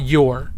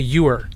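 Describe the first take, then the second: First: It sounds like a single syllable, 'yore'. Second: It sounds like 'you are' run together. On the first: "not your" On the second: "I say you're, almost like I'm getting rid of the space between you are"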